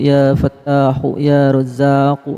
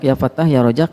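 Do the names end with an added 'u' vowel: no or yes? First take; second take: yes; no. First: The names end with a linking 'u' vowel. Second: The names end abruptly without a final vowel. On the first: It feels light to breathe. The speaker calls it right. "Kalau dibaca wasol" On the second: It feels stuffy and heavy on the chest. The speaker calls it wrong. "Ini terasa pengap"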